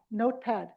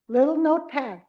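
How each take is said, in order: First: Said in the usual way. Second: Notepad said louder and punched; stressed notepad. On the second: Shown as a demonstration. Teacher answering her own question to caregivers, louder "notepad". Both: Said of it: "what did they use?".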